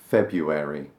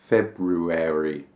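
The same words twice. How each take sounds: First: The first r sound is left out. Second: The first r sound is pronounced. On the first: The speaker calls it right. "I don't pronounce it" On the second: The speaker calls it wrong. "Maybe some people do. February. Doesn't sound right"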